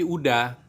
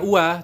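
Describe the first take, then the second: First: The word is said with a d sound. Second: The word is said without a d sound. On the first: The speaker calls it right. "tapi udah" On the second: The speaker calls it wrong.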